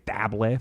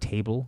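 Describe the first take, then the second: First: The word is pronounced with French sounds. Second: The word is pronounced with English sounds. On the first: This is the word's original foreign form. "We don't say table" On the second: This is the form people actually use now. "for table"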